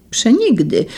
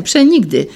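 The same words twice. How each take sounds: First: Said in the usual way. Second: Forceful cry. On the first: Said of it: "zawołał". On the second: A narrator's reading. Young man refusing the blindfold, crying przenigdy forcefully. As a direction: hurl the word przenigdy out with force. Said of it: "zawołał z siłą młodzieniec".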